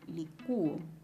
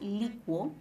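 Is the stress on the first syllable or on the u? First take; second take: the u; first syllable. First: The stress is on the u, as a separate syllable. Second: The stress is on the first syllable, li. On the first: "y en ese caso la vocal cerrada lleva la mayor fuerza de voz" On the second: "Se puede pronunciar como licuo. En la vocal cerrada está la mayor fuerza de voz"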